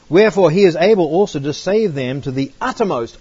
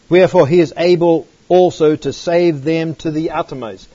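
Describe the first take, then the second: First: It is read at a normal pace. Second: It is read more slowly.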